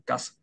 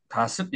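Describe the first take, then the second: First: 가습 cut short and tight; 가습 struck briefly, no lengthening; short clipped vowel. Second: 가습 with the vowel left long; not cut short. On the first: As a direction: snap off each short vowel in 가습. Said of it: "짧게 끊어치는". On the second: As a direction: say 가습 without snapping it off. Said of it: "이렇게 하지 않고". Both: Shown as a demonstration.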